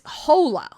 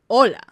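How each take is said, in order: First: The word starts with a rough throat h sound. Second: The word starts directly with the vowel sound. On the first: The speaker calls it wrong. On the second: The speaker calls it right.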